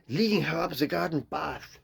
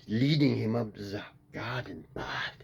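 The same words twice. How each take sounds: First: The idiom in a higher, lightly American Hollywood voice; American Hollywood speak. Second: Said in the usual way. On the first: Retold or imitated. Director dropping a British idiom in American Hollywood speak. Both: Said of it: "you go into American Hollywood speak".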